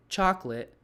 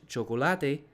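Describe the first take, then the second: First: "chocolate" as two syllables, CHOK-lit; English pronunciation. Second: "chocolate" as four syllables, cho-ko-LA-te; Spanish "chocolate", stressed on the third syllable; Spanish pronunciation. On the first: Teacher modelling English for Spanish students, two-syllable CHOC-late. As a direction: hit the first syllable of "chocolate", swallow the middle. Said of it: "stress is on the first syllable". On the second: Teacher contrasting Spanish with English, four-syllable cho-co-LA-te. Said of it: "But in Spanish". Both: Shown as a demonstration.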